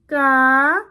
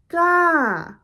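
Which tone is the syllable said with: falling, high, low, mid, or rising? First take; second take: high; falling. First: The syllable is said on a high tone. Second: The syllable is said with a falling pitch. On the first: "A high tone would be" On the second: "a falling tone would be"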